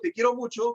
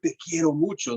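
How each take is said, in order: First: It is said flatly, with little intonation. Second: It is said with more emphasis and intonation.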